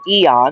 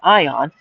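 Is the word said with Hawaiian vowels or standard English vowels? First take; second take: Hawaiian vowels; standard English. First: It is said with Hawaiian-style vowel sounds. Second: It is said with standard English vowel sounds. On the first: The speaker calls it wrong. "which is how you would pronounce it with the Hawaiian saying" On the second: The speaker calls it right. "instead of Ion"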